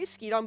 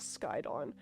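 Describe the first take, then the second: First: The first syllable sounds like 'skee'. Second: The first syllable sounds like 'sky'. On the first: This is the speaker's own informal way of saying it. The speaker calls it wrong. "I say Skeedon" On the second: This is the official way of saying it. The speaker calls it right. "the correct pronunciation is Skydon"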